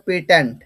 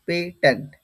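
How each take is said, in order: First: পেট্যান্ট as pe-tent, connected; pronunciation demo. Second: পেট্যান্ট in two parts, pe, tent; broken-up pronunciation. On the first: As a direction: model পেট্যান্ট firmly for the class. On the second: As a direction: separate the syllables of পেট্যান্ট. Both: Shown as a demonstration. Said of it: "তারপর উচ্চারণ হবে".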